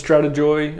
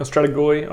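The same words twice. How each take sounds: First: Strategoi with the g said as a j; soft-g strategoi. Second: Strategoi with a hard g as in go. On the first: Unsure non-Greek speaker trying strategoi, g like j. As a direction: say "strategoi" ending in "joy". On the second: Unsure non-Greek speaker correcting to strategoi, hard g. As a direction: say "strategoi" ending in "goy". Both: Shown as a demonstration. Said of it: "I don't speak Greek".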